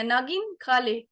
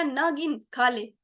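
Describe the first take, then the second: First: "नागिन" as one word, then slowly "खा ले"; नागिन run together. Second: "नागिन" slowly parted into "ना गिन", then "खा ले"; ना गिन split. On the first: Trainer contrasts the first reading, "नागिन" run together. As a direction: say "नागिन" all in one, pause, "खा ले". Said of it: "पहले मैंने इकट्ठे बोल दिया". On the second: Trainer contrasts the second reading, "नागिन" split in two. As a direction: break "नागिन" after "ना", slowly. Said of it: "दूसरा". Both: Shown as a demonstration.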